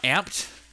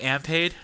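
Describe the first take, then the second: First: The word is said as one syllable. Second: The word is said as two syllables. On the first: The speaker calls it right. "It's just called Amped" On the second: The speaker calls it wrong. "I used to call it Ampade"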